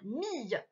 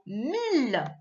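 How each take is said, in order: First: The word ends with a y sound. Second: The word ends with an l sound. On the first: It is a syllable read in the earlier exercise. "comme à la fin de famille" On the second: It is the number one thousand. "c'est le mot mille. Le nombre mille"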